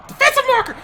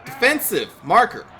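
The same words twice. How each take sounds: First: "Defensive marker" jumps way higher in a shrieking yelp; squeaky outraged yelp. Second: Said in the usual way. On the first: Shown as a demonstration. Gamer reading his tooltip, squealing in outrage.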